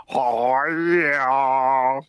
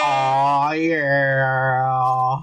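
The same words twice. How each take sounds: First: Low, drawn-out copycat oh yeah; a poor mimic's long, low holler; imitating co-host's catchphrase. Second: Low, long-held oh yeah; a long, low party-horn holler; drawn-out catchphrase. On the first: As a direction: stretch it out, imitating your co-host. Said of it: "I'll do it like son". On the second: Pretend. His drawn-out catchphrase after a countdown.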